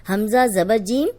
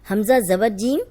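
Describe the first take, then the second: No difference in how they are said.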